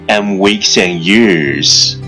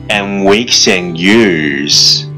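No difference in how they are said.

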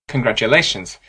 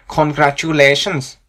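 First: One syllable carries clearly stronger stress. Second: All syllables are stressed about evenly. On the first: "instead of saying congratulations" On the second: "we say congratulations"

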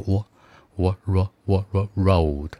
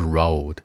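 First: It starts with a rounded w-like glide. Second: It starts straight on r with no rounding. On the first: The speaker calls it right. "前面加个我road 可能会更好听一点哦" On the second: The speaker calls it wrong. "你直接发road 的音就是road"

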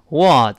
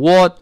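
First: An American vowel with a wider mouth opening. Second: A British vowel with a smaller mouth opening. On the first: The speaker calls it right. "美式呢口型变得大一些，读成what" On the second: The speaker calls it wrong. "那个what 是英式发音啊"

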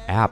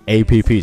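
First: It is said as one single syllable. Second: It is spelled out as three letters. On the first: The speaker calls it right. "直接读一个app 就可以了" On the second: The speaker calls it wrong. "读成APP 这三个音节"

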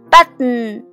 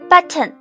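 First: The t sounds are released through the nose. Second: The t sounds are pronounced with a full release.

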